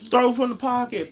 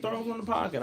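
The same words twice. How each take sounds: First: High mocking parrot of the coaching phrase; pitched way up, mocking the slogan; mocking the coaching line. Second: High and softer repeat. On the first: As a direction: say throw from the pocket much higher, like a tired cliché. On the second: Retold or imitated. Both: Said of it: "the emphasis on".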